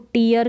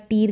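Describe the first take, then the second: First: The vowel is a long 'ee' with 'yar'. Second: The vowel is a long 'ee' with 'r'. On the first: "इसको टीयर करके या टीर करके नहीं पढ़ेंगे" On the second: "इसको टीयर करके या टीर करके नहीं पढ़ेंगे"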